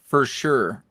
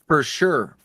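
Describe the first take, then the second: No difference in how they are said.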